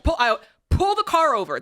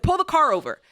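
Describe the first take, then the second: First: Sharp, higher, urgent order to pull over; snapping at her husband in the car; frustrated outburst, replayed; retold angry demand. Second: Higher, insistent command; retold furious order; angry demand repeated. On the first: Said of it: "Ken, I lost it". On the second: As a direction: bark it at the driver again. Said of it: "I was so angry".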